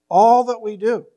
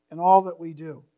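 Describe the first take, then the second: First: All punched louder with a small lift; stress on All. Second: Said in the usual way. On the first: Shown as a demonstration. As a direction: lean hard on the word All, then let it land. Repeats phrase for emphasis.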